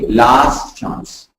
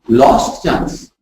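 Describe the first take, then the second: First: The first word has an A vowel, like 'last'. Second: The first word has an O vowel, like 'lost'. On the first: The speaker calls it right. "No, it's A" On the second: The speaker calls it wrong. "we are converting that A to an O"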